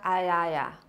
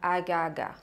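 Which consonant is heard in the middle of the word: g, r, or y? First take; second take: y; g. First: The r is replaced by a y sound. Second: The r is replaced by a g sound. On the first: "o arara pode virar aiaia" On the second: "ou pode virar agaga"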